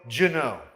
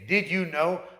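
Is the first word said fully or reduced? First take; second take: reduced; full. First: The word did is reduced and blended. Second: The word did is pronounced fully.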